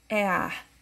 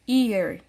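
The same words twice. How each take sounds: First: The first vowel sounds like "eh". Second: The first vowel sounds like "ee". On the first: The speaker calls it wrong. "não iremos falar ear" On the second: The speaker calls it right. "a letra E em inglês, ela tem um som de I"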